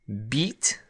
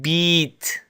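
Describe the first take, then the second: First: The vowel is a normal English length. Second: The vowel is held noticeably longer. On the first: "similar to the double E in English" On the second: "with a ya, a long vowel ya in Arabic"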